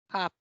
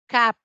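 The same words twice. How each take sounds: First: "cup" with short, barely open uh; schwa vowel. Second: "cup" with wide-open a, like "cap"; open-A vowel. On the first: Teacher contrasting two sounds, "cup" with schwa. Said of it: "y esta es con A". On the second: Teacher contrasting two sounds, "cup" with open a. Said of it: "esta es con A". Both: Shown as a demonstration.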